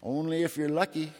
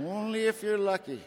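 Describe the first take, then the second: First: Said in the usual way. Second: Only if you're lucky with "if" pitched high then falling; stress on lucky. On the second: Shown as a demonstration. Punchline answering "for me to drink is to die", "if" pitched high. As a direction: lift "if" way up, then let "lucky" fall.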